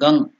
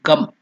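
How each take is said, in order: First: The syllable ends with a nasal ng sound. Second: The syllable ends with a closed m sound. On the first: The speaker continues into the next word. "if you are continuing, then Gang, nasal sound" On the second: The speaker stops before the next word. "If you stop there and then go to the next letter, you have to do it Gam"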